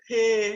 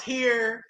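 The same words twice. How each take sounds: First: "here" said as Chicago locals say it; Chicago pronunciation. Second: Said in the usual way. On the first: Shown as a demonstration. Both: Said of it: "it's the way y'all pronounce".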